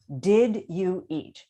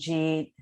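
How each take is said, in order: First: Each of the three words is said separately. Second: The words run together into one short syllable. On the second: "everyone mumbles"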